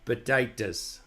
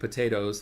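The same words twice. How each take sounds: First: The word is said in a broad Irish accent. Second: The word is said in the speaker's ordinary accent. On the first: "I'm going to try to pronounce it in the quote unquote low Irish pronunciation" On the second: "like the way I'm saying it"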